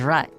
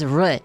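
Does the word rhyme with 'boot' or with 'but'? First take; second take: but; boot. First: The word is said with the vowel of 'rut'. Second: The word is said with the vowel of 'boot'. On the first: The speaker calls it wrong. "rut is rut" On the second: The speaker calls it right. "it's root, not rut"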